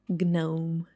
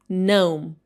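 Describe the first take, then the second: First: The G at the start is sounded. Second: The G at the start is silent. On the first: The speaker calls it wrong. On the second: The speaker calls it right. "it should be pronounced like gnome"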